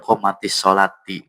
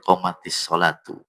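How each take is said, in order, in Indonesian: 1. Kata terakhir berakhir dengan bunyi -ati. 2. Kata terakhir berakhir dengan bunyi -atu. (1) "Atau dia pada komatis solati" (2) "Bukan ti tapi tu pun"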